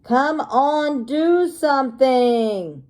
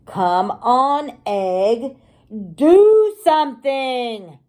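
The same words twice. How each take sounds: First: Lightly voiced dad. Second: Loud, slowing impatient shout. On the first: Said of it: "There's the daddy dinosaur saying". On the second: Acted. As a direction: yell at the egg to hurry.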